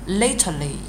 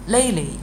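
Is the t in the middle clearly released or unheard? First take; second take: released; unheard. First: The t is released, splitting the word apart. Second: The t is unheard and the word flows smoothly. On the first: The speaker calls it wrong. "咱不能说lately 啊，别人就听出来这个lately 是不是就好像断开了" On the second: The speaker calls it right. "很连"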